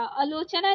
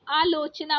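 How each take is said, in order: First: आलोचना with a short first a; wrong short first vowel. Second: आलोचना with a long opening aa; correct long first vowel. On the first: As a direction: say आलोचना as "uh-lo-cha-naa". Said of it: "आलोचना नहीं". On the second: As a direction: say आलोचना as "aa-lo-cha-naa". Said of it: "आलोचना होता है". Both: Shown as a demonstration.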